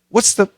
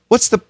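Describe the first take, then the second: First: Said fast, the TH sound disappears. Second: The same.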